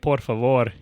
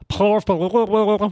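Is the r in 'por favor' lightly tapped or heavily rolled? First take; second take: tapped; rolled. First: The r sounds are plain and lightly tapped. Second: The r sounds are heavily and exaggeratedly rolled.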